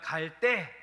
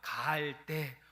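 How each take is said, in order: First: The word is said forcefully with a hard consonant. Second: The word is said slowly and softly. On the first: It means the time to go. "갈대를 세게 발음하면" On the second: It means the place to go. "갈대를 천천히 약하게 발음하면"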